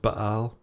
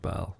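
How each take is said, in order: First: A glottal stop splits the word in the middle. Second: The word runs smoothly with no glottal stop. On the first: This is the original pronunciation of the name. "it should be pronounced Baal" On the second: This is how the fictional planet is pronounced. "doesn't have the glottal stop in the middle"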